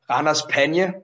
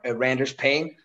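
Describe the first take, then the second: First: The name has a Danish-style pronunciation. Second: The name has an English-style pronunciation. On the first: "The tag team I wrestle in without a mask is called" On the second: "On English, when the commentators pronounce it"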